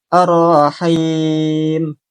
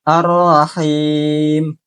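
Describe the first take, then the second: The two takes are said the same way.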